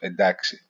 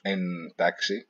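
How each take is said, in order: First: The middle consonant sounds as a plain d. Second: The middle consonants sound as a clear nt. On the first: The speaker calls it right. "now is pronounced as "d."" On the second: The speaker calls it wrong. "It's not pronounced "entaxi.""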